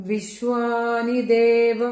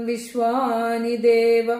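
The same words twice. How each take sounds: No difference in how they are said.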